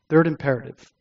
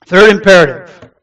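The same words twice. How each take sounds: First: Soft, settled restatement of a heading; quiet repeat. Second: Loud, firm announcement of a heading; loud restart. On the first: Repeats heading after composing himself. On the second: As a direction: gather yourself and announce it forcefully. Restarting after getting emotional. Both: Real, not acted.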